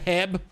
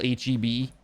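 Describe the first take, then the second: First: The name is said as one short word. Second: The name is spelled out letter by letter.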